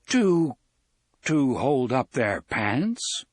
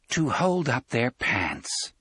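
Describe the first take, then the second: First: It is said as a rising question. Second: It is said as a falling statement.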